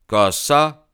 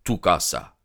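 First: Étonné. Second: Said in the usual way. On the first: A narrator's reading. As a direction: question surprise montant haut. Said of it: "dit Holmes". (Holmes répète, étonné et montant)

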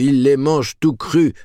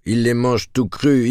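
First: Barker call at full peak, higher still; loud carnival barker. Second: Barker call, first time building; loud carnival barker. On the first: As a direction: top the shout even higher and louder. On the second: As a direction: start the barker shout, rising. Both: Acted. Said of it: "en imitant le bonimenteur".

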